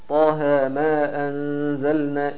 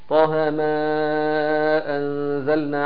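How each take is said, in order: First: The vowel of 'ma' is held two counts. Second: The vowel of 'ma' is held four counts. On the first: "يبقى اثنين" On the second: "يبقى انت كده اربعة"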